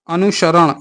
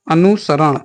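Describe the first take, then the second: First: अनुसरण said with sh, anu-sharan; wrong sibilant. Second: अनुसरण said with a clean s, anu-saran; correct sibilant. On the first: Teacher contrasting sha and sa, अनुसरण with sh. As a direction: put a sh in place of the s in अनुसरण. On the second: Teacher contrasting sha and sa, अनुसरण with s. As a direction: keep the plain s in अनुसरण. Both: Shown as a demonstration. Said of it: "शा और सा".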